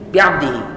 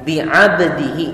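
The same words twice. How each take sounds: First: The word is said quickly with sounds rushed. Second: The word is said at a steady, unhurried pace. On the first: The speaker calls it wrong. "Cepat ya" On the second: The speaker calls it right. "Mestinya kan"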